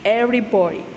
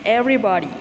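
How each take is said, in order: Both takes have the same delivery.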